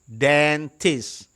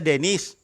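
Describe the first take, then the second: First: The t sounds are clearly pronounced. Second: The t sounds are dropped, like Dennis. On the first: The speaker calls it right. "Dentist bacanya" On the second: The speaker calls it wrong. "Jangan dibaca Dennis"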